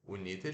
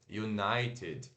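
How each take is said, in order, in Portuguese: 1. É lida letra por letra, como está escrita. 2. É dita com pronúncia em inglês. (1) "se escreve United" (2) "mas em inglês se pronuncia United"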